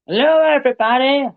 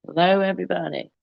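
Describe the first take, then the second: First: Much higher, silly character voice; playful squeaky greeting; high put-on voice. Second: Said in the usual way. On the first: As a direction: chirp it like a cartoon doctor.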